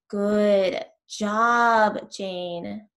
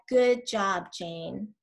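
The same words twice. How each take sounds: First: It is said louder and much slower. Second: It is said at a normal pace and volume.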